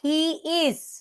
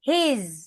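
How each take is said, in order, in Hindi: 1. दोनों शब्द पूरे और अलग-अलग बोले जाते हैं। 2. दोनों शब्द मिलकर एक संकुचित अक्षर बन जाते हैं। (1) "अगर हम बोलें ही इज, एक एक लफ्ज बोलें, तो वो अच्छा नहीं लगता है।" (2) "कॉन्ट्रैक्शन के साथ"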